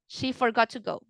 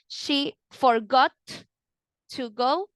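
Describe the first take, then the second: First: The T of forgot is dropped and linked. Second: The T of forgot is clearly pronounced. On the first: The speaker calls it right. "So it sounds better" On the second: The speaker calls it wrong. "instead of saying"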